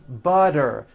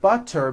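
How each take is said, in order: First: The middle consonant is a voiced D sound. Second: The middle consonant is a clear T sound.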